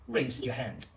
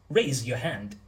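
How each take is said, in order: First: The R at the start is soft. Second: The R at the start is strong. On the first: The speaker calls it wrong. "The R in raise is still a bit soft" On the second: The speaker calls it right. "The R is nice and strong"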